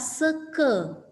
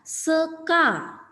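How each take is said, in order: First: The final vowel is pronounced as e. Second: The final vowel is pronounced as a. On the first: The speaker calls it right. "dibaca seke" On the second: The speaker calls it wrong. "seka itu ya"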